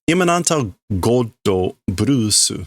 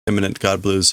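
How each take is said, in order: First: It is said with Japanese pronunciation. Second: It is said with English pronunciation.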